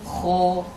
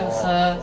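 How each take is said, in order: First: The vowel is heavy and thick, like 'o'. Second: The vowel is light and thin, like 'e'. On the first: The speaker calls it right. "maka dia jadi tebal" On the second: The speaker calls it wrong. "bukan khe"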